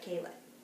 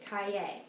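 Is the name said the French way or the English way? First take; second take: English; French. First: The name is said the English way. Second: The name is said the French way. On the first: The speaker calls it wrong. "instead of Caylett" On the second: The speaker calls it right. "we should pronounce it Kaye"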